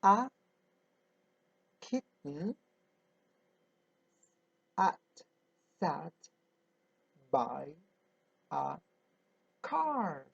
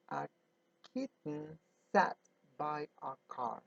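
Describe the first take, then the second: First: Slow word-by-word reading. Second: Said in the usual way. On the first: Shown as a demonstration. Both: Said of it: "It says".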